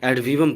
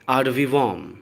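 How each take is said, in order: First: The first word sounds like 'ed'. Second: The first word sounds like 'ahd'. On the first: The speaker calls it wrong. "English की नज़र से इसको देखने लगते हैं और एड वीवम पढ़ देंगे, बट ये गलत है" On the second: The speaker calls it right. "इसका करेक्ट प्रोनाउंसिएशन है"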